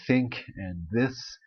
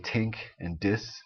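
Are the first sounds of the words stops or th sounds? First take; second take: th sounds; stops. First: The words begin with soft th sounds. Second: The words begin with hard t and d sounds. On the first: This is how most Canadians say it. "most Canadians would say think and this" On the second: This is how Newfoundlanders say it. "Newfoundlanders typically say tink and dis"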